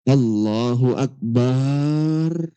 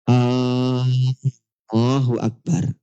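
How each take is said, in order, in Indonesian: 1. Suku kata bar terakhir dipanjangkan. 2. Vokal A di awal dipanjangkan. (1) "Atau barnya dipanjangkan" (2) "Ketika huruf A-nya dipanjangkan"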